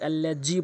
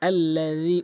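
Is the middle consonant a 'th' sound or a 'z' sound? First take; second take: z; th. First: The middle consonant is a z sound. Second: The middle consonant is a soft th sound. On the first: The speaker calls it wrong. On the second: The speaker calls it right.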